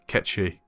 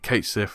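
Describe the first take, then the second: First: The name is said as two syllables, 'Ketchi'. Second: The name is said as four syllables, 'Kate Sith'. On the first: The speaker calls it right. "it's pronounced Ketchi" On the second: The speaker calls it wrong. "I was pronouncing it Kate Sif"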